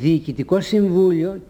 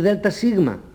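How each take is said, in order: First: The phrase is spoken as two full words. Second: The phrase is spoken as two letter names. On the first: The speaker calls it right. "προφέρουμε διοικητικό συμβούλιο" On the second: The speaker calls it wrong. "και όχι δέλτα σίγμα"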